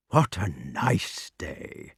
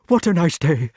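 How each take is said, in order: First: Soft, slow, lower caress. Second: Higher, louder, breathless fright. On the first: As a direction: coo it lovingly. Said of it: "in caressing tones". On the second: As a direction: gasp it out scared. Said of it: "quite breathless". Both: Shown as a demonstration.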